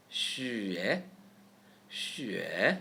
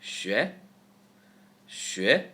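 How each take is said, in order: First: Xue slowly glided, "shü" into "yeh"; connected sounds. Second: Xue quick, one rising syllable; reduced middle sound. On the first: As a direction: stretch xue, joining both parts. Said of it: "now connect them". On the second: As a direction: snap xue together as a short "shweh". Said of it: "Speed up by reducing the E sound". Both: Shown as a demonstration.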